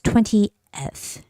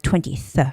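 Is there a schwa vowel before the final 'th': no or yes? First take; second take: yes; no. First: A schwa vowel is heard before the final 'th'. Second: The word ends without a vowel before 'th'. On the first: The speaker calls it right. "actually, no, it's twentieth. You have to make that E sound" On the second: The speaker calls it wrong. "It seems like it's, it's it should be read twentieth"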